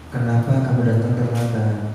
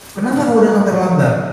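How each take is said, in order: First: It is asked in a friendly, understanding tone. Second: It is asked in a blaming, punishing tone.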